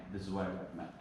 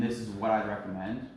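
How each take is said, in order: First: Softer, half-hearted recommendation; soft, low-conviction delivery; weak recommendation. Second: A firm, steady recommendation; understated confidence, at normal volume; confidence and conviction. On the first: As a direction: let the recommendation drop away quietly. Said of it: "without saying, again". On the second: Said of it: "make sure you're saying it with confidence". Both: Shown as a demonstration.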